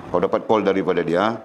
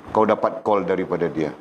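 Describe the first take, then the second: No difference in how they are said.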